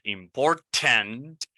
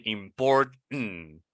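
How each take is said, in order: First: "important" slowly with a full, clear "tent" ending, rising; British-learned important. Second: "important" slowly with the last syllable swallowed into an n; American important. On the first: Teacher showing one of two ways to say it, full-t pronunciation. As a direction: sound both t's in "important". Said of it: "two ways to pronounce the word". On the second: Teacher showing the second way to say it, American pronunciation. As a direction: hold back the t in "important". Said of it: "it has two ways to pronounce". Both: Shown as a demonstration.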